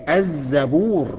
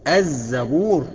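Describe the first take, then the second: Both takes have the same delivery.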